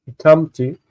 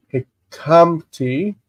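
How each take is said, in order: First: Said in the usual way. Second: Hikamti drawn out, syllable by syllable; slow sounding-out. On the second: Shown as a demonstration. Teacher sounds out new form.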